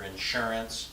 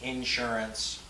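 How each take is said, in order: First: Insurance as in-SUR-ance; second-syllable stress on insurance. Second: Insurance as IN-surance; front-load the word Insurance: IN-surance; first-syllable stress on Insurance. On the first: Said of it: "Second syllable". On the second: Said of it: "not first syllable". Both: Shown as a demonstration.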